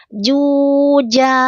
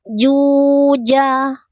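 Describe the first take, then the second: The two takes are said the same way.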